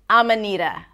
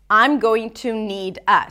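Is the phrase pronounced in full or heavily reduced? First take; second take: reduced; full. First: The words blur together; the d sounds like r. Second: Each word is pronounced fully and separately. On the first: "The D becomes really light at the end, ... it almost sounds like a R sound" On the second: "a reduction of I'm going to need a"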